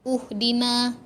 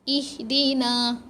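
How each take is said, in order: First: The word begins with a u vowel. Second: The word begins with an i vowel. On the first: The speaker calls it wrong. "uhdina. Tak" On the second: The speaker calls it right. "Oh, baris bawah lah"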